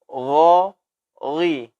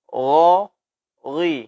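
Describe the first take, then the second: Both takes have the same delivery.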